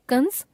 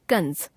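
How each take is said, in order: First: कंस higher, rising; कंस left hanging on a rise; error example, rising. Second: कंस lower, falling; corrected form, falling. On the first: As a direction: lift the end of कंस. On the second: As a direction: close off कंस with a fall. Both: Shown as a demonstration. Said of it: "अनुस्वार और अनुनासिक संबंधी अशुद्धियां".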